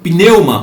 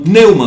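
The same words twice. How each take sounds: First: The initial P sound is pronounced. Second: The initial P sound is left silent.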